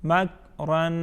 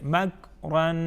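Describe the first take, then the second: The two takes are said the same way.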